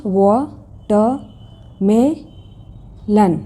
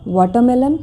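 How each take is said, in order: First: वाटरमेलन very slowly as wo... tuh... me... lun; four widely spaced beats in वाटरमेलन; syllable by syllable. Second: Said in the usual way. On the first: Shown as a demonstration. Teacher showing four syllables, each said separately. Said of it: "चार syllables हैं".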